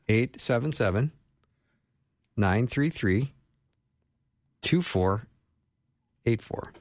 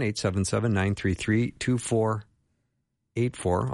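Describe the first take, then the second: First: The number is read at a slower pace. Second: The number is read at a faster pace.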